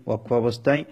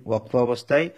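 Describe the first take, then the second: Both takes have the same delivery.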